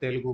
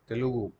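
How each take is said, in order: First: The word is shortened with the middle vowel dropped. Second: The word is said in full with every vowel. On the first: The speaker calls it wrong. "लोग shortcut में क्या बोलते हैं? तेलुगु बोलते हैं" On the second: The speaker calls it right. "तेलुगु होता है"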